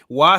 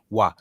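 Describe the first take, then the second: First: The pitch moves in a song-like melody. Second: The pitch stays flat and level throughout. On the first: It means to come. "sounds like you're about to break into song" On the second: It means to be. "just level tone"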